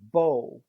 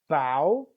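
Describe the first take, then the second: First: The vowel sounds like 'oh'. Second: The vowel does not sound like 'oh'. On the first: A tied ribbon or the weapon used with arrows. "it sounds like B O" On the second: Bending the body forward or the front of a ship. "move your body, bow of a ship"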